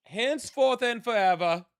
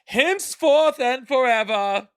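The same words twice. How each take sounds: First: High-pitched, easier-going medieval herald. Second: Loud, high, slow medieval proclamation; drawn-out, high-pitched medieval decree. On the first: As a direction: repeat the decree high but less forcefully. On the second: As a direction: declare it grandly like a medieval herald. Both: Pretend. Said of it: "I'll try to do a medieval voice".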